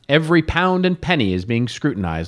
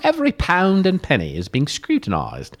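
First: It is read in the speaker's usual accent. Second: It is read in a put-on English accent.

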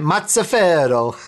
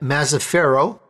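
First: The name is said with an Italian accent. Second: The name is said with an American accent.

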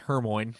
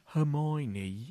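First: The name is said with two syllables, Her-moyn. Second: The name is said with four syllables, Her-my-oh-nee. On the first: The speaker calls it wrong. "we thought that Hermione was pronounced Hermoine" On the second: The speaker calls it right. "that's really what it was"

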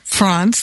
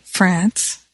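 First: France is pronounced the European way. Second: France is pronounced the American way. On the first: "as they say here in Europe" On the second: "I still say France because I'm American"

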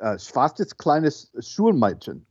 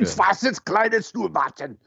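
First: It is said without much anger. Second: It is said with strong anger. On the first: The speaker calls it wrong. "You didn't sound as angry as I think" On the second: The speaker calls it right. "I should do it much angrier"

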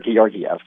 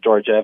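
First: The name is said the native way. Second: The name is said the American way. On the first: The speaker calls it right. "So it is Alexandar Georgiev" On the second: The speaker calls it wrong. "That's the American way to say it"

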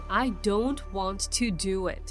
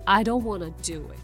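First: Want to is said as two full words. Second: Want to is blended into wanna. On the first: The refusal is firm and emphatic. "want to を使うときと場合によってはとても強調になったりする" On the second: The refusal is light and casual. "wanna にするとI don't wanna do it の響きになります"

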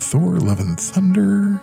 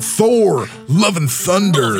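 First: It is said in a calm, close-mic radio voice. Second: It is said like a loud hype announcer.

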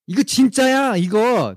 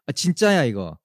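First: It is said slowly. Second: It is said at normal speed.

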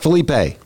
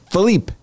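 First: The name ends with a pronounced vowel sound. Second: The name ends in a consonant, final E silent. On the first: The speaker calls it wrong. "Not Felipe" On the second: The speaker calls it right. "We finally looked up what it actually should be. It's Philippe"

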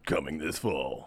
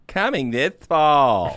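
First: It is said in a deep movie-trailer voice. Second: It is said in the speaker's natural voice.

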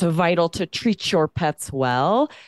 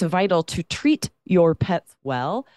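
First: The t and y merge into a ch sound. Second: The t and y stay separate, hard t. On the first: The speaker calls it right. "you hear that ch between those words" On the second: The speaker calls it wrong. "you separate that and there's no assimilation"

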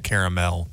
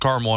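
First: It is said with a British pronunciation. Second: It is said with an American pronunciation. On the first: "In the UK" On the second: "It's caramel in America"

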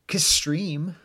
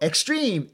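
First: The name begins with a 'kay' sound. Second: The name begins with an 'ex' sound. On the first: "I suppose you could pronounce it K-Stream" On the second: "Like the word stream, but with an X instead of an S"

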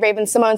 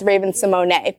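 First: The surname ends silently after the N sound. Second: The surname ends with a pronounced final E. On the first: The speaker calls it wrong. "they told me to say [name]" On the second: The speaker calls it right. "if you want to pronounce it correctly, it's Raven Simone"

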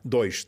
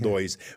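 First: It ends in a hissing sh-like sibilant. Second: It ends without the hissing sibilant.

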